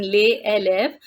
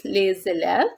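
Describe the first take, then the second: First: Les élèves with no z link, "le élèves"; teacher showing the wrong les élèves; no liaison. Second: Les élèves linked with a z sound, "lez élèves"; teacher showing the right les élèves; with liaison. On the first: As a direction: say les élèves with the s silent and a break before élèves. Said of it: "We are not saying". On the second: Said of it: "the pronunciation is". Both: Shown as a demonstration.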